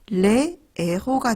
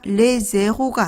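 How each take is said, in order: First: The two words stay separate with no z. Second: A z sound links the two words. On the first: The speaker calls it right. "레에호가 되는 겁니다" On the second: The speaker calls it wrong. "레제호가 아니라"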